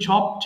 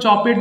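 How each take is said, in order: First: The ending is a bare consonant, one syllable. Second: The ending is said as an extra syllable. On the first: The speaker calls it right. "এটা কিন্তু চপড হবে" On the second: The speaker calls it wrong. "এটা আবার কেউ চপেট বলো না কিন্তু"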